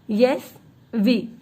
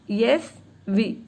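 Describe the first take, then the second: No difference in how they are said.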